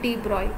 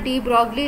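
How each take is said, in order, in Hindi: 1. नाम 'g' की आवाज़ के बिना बोला जाता है। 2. नाम 'g' की आवाज़ के साथ बोला जाता है। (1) "लेकिन इसको प्रोनाउंस करते हैं डी ब्रॉय" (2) "लिखा जाता है डी ब्रॉगली"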